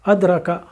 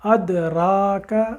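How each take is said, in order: First: The ra vowel is short, ka short. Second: The ra vowel is long, ka short. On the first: The speaker calls it wrong. "गलती ये हो जाती ... अलिफ छोटा" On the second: The speaker calls it right. "रा के साथ जो अलिफ है उसे हम पूरा पढ़ें"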